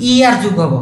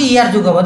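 The two takes are said the same way.

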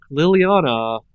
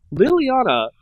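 First: Said in the usual way. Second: Higher, louder warning call; sharp call. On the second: A narrator's reading. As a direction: call her name sharply.

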